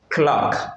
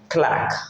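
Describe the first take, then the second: First: The vowel is a British rounded O sound. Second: The vowel is an open American 'ah' sound. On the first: "clock pour l'anglais britannique" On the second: "Mais pour l'américain, l'anglais standard, on dit clack"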